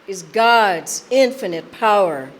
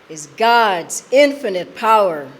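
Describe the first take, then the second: No difference in how they are said.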